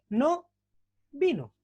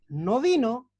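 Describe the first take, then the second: First: There is a pause after no. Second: It is said without a pause after no.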